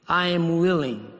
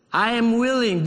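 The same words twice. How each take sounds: First: Said in the usual way. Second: Willing pressed, higher and louder; stress on willing. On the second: Shown as a demonstration. Pastor repeating Jesus's promise to the congregation, emphatic. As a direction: lift and press willing the second time. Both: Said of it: "I want you all to remember".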